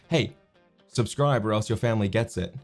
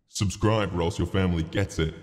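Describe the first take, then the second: First: It is said in a normal voice. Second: It is said in a deep, godlike voice.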